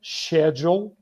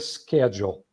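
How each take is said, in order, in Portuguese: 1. É dita com pronúncia britânica. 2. É dita com pronúncia americana. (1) "da maneira britânica schedule" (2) "Enquanto que o americano pronuncia schedule"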